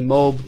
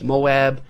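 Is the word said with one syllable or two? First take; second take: one; two. First: The word is said as one syllable. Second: The word is said as two syllables.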